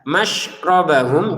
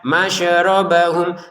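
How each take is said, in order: First: The sh sound is held without a bounce. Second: The sh sound bounces with a short vowel echo. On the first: The speaker calls it right. "Shin bertasdid jangan dipantulkan" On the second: The speaker calls it wrong. "jangan dibaca masyrobahum. Masyer nggak ada e di sini ya"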